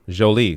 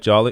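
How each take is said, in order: First: The name is pronounced the French way. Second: The name is pronounced like the English word jolly. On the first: The speaker calls it right. "my name is French. Oh, Jolie. Sorry" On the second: The speaker calls it wrong. "Did I say this right?"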